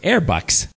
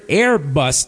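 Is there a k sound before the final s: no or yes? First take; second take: yes; no. First: The word ends in a k-s sound. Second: The word ends in a plain s sound. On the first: "to her was Airbucks" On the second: "the word Airbus"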